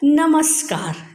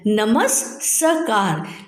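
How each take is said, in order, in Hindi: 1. s आधी ध्वनि की तरह जुड़कर बोला जाता है। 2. s पूरा, अलग अक्षर की तरह बोला जाता है। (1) "शुद्ध रूप क्या है" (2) "दो स है तो हमारा क्या बन रहा है"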